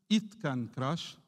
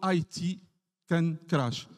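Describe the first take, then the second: First: It is spoken as one short word. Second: It is spoken as two separate letters. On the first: The speaker calls it right. "c'est juste it can crash" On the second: The speaker calls it wrong. "Quand on prononce I T, c'est nous"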